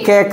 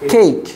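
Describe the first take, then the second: First: The vowel is a short 'e'. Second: The vowel is the diphthong 'ay'. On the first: The speaker calls it wrong. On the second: The speaker calls it right.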